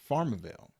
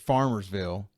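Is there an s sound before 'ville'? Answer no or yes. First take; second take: no; yes. First: No s sound comes before 'ville'. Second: An s sound comes before 'ville'. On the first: This is how the locals say the name. "they say Farmerville" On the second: This is how the name is written. "it's written out as plain as day"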